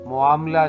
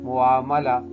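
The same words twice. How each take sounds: First: There is no clear 'a' after the second m. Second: There is a clear 'a' after the second m. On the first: The speaker calls it wrong. "नहीं" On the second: The speaker calls it right. "मीम पे ज़बर है"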